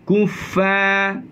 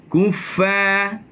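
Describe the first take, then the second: The two takes are said the same way.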